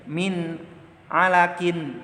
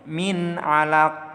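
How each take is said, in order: First: The last word ends with a vowel and n. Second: The last word ends with a bare stop consonant. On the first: "huruf qafnya kasrotain" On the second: "Maka dibacanya"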